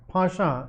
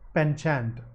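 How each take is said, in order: First: It is pronounced the British way. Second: It is pronounced the American way. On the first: "Pasha is the British one" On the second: "the American pronunciation is penchant"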